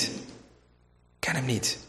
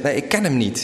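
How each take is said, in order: First: Much softer and slow, almost to himself; a quiet, slowed-down repeat of the denial; hushed slow denial. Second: Said in the usual way. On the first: Retold or imitated. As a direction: let the denial sink into a murmur. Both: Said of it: "je zegt".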